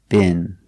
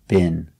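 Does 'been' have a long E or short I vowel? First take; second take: short I; short I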